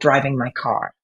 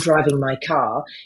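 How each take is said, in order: First: It is said in the speaker's own natural accent. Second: It is said in a put-on British broadcasting accent. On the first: The speaker signals a different heritage. "instead of" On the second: The speaker hides a different heritage. "I can mock it up"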